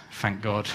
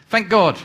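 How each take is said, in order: First: Softer relieved breath of thanks; relieved sigh. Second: Higher and louder, a rider urging his horse off; eager exclamation. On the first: Rescued rider sits back and sighs his thanks, softly. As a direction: let it out as a tired, thankful sigh. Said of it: "sighs, and says". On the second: Man on the missionary's horse calls out to start it, eager and loud. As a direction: call it out to get the horse going. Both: Acted.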